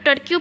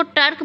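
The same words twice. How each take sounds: First: "टर्क्यू" said as tor-kyoo, with a "kyoo" ending; the wrong "टर्क्यू", ending in "kyoo"; "टर्क्यू" with a "kyoo" tail, as some people say it; wrong pronunciation. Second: "टर्क" said as one syllable, tork, with no "kyoo" ending; the right way: "टर्क", short and single-syllable; "टर्क" ends cleanly on the k; correct pronunciation. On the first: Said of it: "लेकिन इसको टर्क बोलना है हमने". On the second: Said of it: "कुछ लोग टर्क्यू बोलते हैं". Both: Shown as a demonstration.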